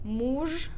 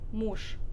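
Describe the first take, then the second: First: The final consonant is voiced. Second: The final consonant is voiceless. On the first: The speaker calls it wrong. "We have muj" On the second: The speaker calls it right. "but we say mush"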